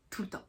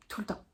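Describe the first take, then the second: No difference in how they are said.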